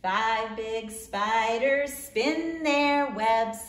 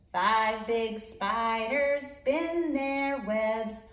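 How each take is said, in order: Both takes have the same delivery.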